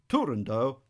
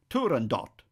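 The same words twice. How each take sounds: First: The final T is left silent. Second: The final T is clearly sounded. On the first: It follows the composer's own usage. "since Puccini himself called the work Turandot" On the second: It follows the Persian origin of the word. "in Persian the final T would be sounded, some people opt for Turandot"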